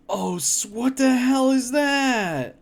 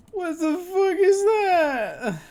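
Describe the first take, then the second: First: Slow disgusted yell at the cursed food; horrified shout. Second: Much higher, slow crying wail of disgust; slow pained cry at a worse food crime; anguished wail. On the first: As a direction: yell it out at the gross picture. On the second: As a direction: wail it like the picture hurts. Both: Real, not acted. Reacting to a cursed food picture.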